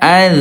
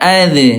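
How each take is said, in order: First: The final consonant is soft and flows on. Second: The final consonant stops with a bounce. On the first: The speaker calls it right. "lemah mengalir" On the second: The speaker calls it wrong. "jangan sampai uh, apa mantul ya ... itu salah ya"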